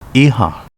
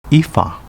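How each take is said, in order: First: The name is said with Japanese sounds. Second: The name is said with Okinawan sounds. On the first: This is the name's present-day reading. "current reading" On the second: This is the name's older native reading.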